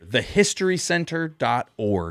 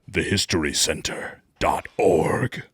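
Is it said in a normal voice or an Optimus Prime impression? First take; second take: normal voice; Optimus Prime. First: It is said in a normal voice. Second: It is said in an Optimus Prime voice.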